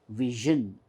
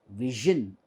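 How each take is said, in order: Both takes have the same delivery.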